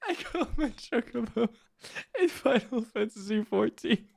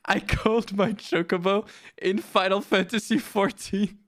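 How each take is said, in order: First: High, soft words squeezed through laughter; losing it, barely getting the words out; helpless laughter. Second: Said in the usual way. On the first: Real, not acted. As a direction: try to say it while cracking up. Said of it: "it makes me laugh".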